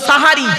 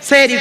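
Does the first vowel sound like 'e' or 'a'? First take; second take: a; e. First: The first vowel is an a sound. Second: The first vowel is an e sound. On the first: The speaker calls it right. "দন্তেশ্বয় আকার" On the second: The speaker calls it wrong. "ভুল শব্দটা"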